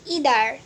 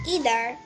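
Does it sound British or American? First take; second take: American; American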